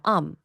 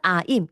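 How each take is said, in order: First: It is reduced to a short "um". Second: It is said fully, like "aim". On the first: The speaker calls it right. "이렇게 발음해요" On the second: The speaker calls it wrong. "무조건 아임 이렇게 발음하는데 절대 아니에요"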